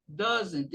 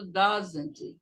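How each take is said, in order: First: DOESN'T with a more closed first vowel. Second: DOESN'T with a wide-open first vowel. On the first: Retold or imitated. Teacher imitating a colleague's pronunciation for students, closed-vowel "doesn't". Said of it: "ele fecha mais, ele fala". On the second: Shown as a demonstration. Teacher showing students their own pronunciation, open-vowel "doesn't". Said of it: "o O meu é bem aberto".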